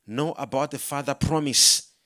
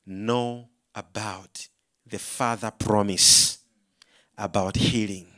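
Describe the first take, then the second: First: Firm, voiced repeat of a whispered message; retold Spirit's message. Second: Very low, slow, measured voice; deep deliberate message, voiced rather than whispered; retold Spirit's whisper. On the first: Preacher repeating the Holy Spirit's words to congregation, firm. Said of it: "The Holy Spirit whispered to me". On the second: Holy Spirit answering preacher's prayer, retold whisper. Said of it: "I heard a whisper of the Holy Spirit".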